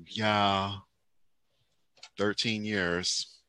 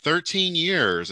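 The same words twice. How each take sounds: First: Soft, drawn-out mock reply; imitating the guest's reply. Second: Drawn-out, higher host's remark; imitating the host. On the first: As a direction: answer quietly and slowly, quoting her. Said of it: "And she's like". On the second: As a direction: marvel slowly, quoting the host. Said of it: "And he was like".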